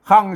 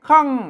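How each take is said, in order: First: The syllable is said with a low tone. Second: The syllable is said with a falling tone. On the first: "เสียงเอก" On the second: "เสียงโท"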